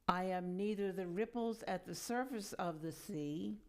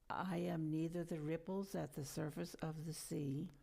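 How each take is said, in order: First: It is said loudly with high energy. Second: It is said in an ordinary speaking voice. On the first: "with much energy" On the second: "in a normal speaking voice"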